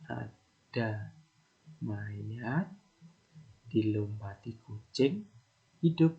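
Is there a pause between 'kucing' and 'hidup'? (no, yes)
yes. There is a pause before the word hidup. The corpse comes back to life after the cat jumps over it. "Hal yang pertama kan asumsi kita mayat terus dilompati kucing hidup kembali"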